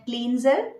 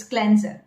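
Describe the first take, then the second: First: "cleanser" as KLEEN-zer; common mispronunciation. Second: "cleanser" as KLEN-zer; correct pronunciation. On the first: Retold or imitated. Coach quoting learners' mistake, common mispronunciation. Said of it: "Many of you must be pronouncing it". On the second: Shown as a demonstration. Coach correcting learners, correct pronunciation. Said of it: "but it's cleanser".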